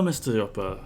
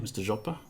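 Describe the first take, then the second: First: The name begins with a Y sound. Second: The name begins with a hard J sound.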